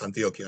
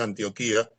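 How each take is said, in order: First: The 'i' before final 'a' is not stressed. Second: The stress falls on the 'i' before final 'a'. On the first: This is how the name is said in parts of America. "en Colombia creo, es" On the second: This is how the name was said in Greek. "tiene acento en la I"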